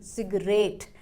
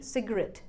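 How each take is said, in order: First: "सिगरेट" as slow "sig-RATE", long vowel; wrong pronunciation. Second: "सिगरेट" as "sig-uh-RET", short final vowel; correct pronunciation. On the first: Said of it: "ना कि". ("सिगरेट" का गलत उच्चारण, धीरे "सिग्रेट") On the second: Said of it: "सही pronunciation बन गई". ("सिगरेट" का सही उच्चारण, "सिगरॅट") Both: Shown as a demonstration.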